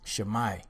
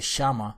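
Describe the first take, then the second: First: The word ends in a 'mai' sound. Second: The word ends in a plain 'ma' sound. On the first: The speaker calls it right. "The word is Shemai" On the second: The speaker calls it wrong. "that's not the proper pronunciation"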